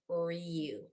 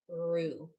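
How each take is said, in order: First: A y sound comes before the oo. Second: The vowel is a plain oo sound. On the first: The speaker calls it wrong. "It's not going to say ryu" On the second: The speaker calls it right. "it's just going to say ooh because that's the natural way to pronounce the U sound if there's an R before it"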